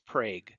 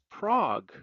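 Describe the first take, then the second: First: It uses the local Oklahoma pronunciation. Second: It uses the pronunciation common around the world. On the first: This is how people in Oklahoma say it. "but here in Oklahoma, it's Prague" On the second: This is how the rest of the world says it. "Prague to the planet"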